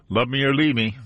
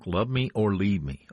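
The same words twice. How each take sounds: First: Louder and higher, savoring the title; excited exclaim. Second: Said in the usual way. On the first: Real, not acted. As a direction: call out the song title with relish.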